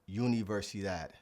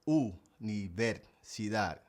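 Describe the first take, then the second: First: The word begins with a 'yoo' sound. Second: The word begins with an 'oo' sound. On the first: The speaker calls it wrong. "A lot of English speakers like to say universidad" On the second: The speaker calls it right. "but it's actually universidad"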